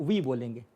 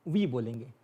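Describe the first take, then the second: Both takes have the same delivery.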